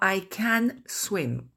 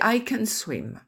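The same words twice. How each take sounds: First: The vowel in 'can' is full and clear. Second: The vowel in 'can' is a weak schwa. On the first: The speaker calls it wrong. "on ne dit pas I can swim" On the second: The speaker calls it right. "On dit I can swim. Donc, il y a le son voyelle E dans can"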